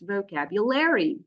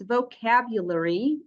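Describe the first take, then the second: First: The ending sounds like a full "airy". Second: The ending is reduced and short. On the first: "in American English, it's vocabulary" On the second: "in British English, it's vocabulary"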